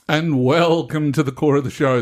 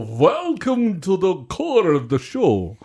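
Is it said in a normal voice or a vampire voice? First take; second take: normal; vampire. First: It is said in his normal voice. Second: It is said in a put-on vampire voice.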